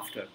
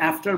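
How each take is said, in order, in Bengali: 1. এটা ভারতীয় উচ্চারণে বলা হয়েছে। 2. এটা আমেরিকান উচ্চারণে বলা হয়েছে। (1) "ইন্ডিয়াতে বলবে আফটার" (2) "আমার আমেরিকায় থাকতে থাকতে না ওরকম উচ্চারণগুলো মানে অটোমেটিক হয়ে গেছে"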